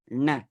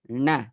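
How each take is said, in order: The two takes are said the same way.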